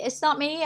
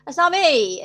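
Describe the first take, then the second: First: Said in the usual way. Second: "It's not me" said louder, punching "not"; firm and loud, hit "not"; emphatic denial. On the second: Real, not acted.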